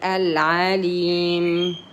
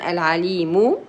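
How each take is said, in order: First: The word ends on the m consonant. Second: The word ends with a short u vowel. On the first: The reciter stops to take a breath. "we are going to have a breath, so we wait" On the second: The reciter continues without stopping. "if you're going to continue"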